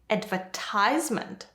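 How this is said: It is said with an American pronunciation. "is American"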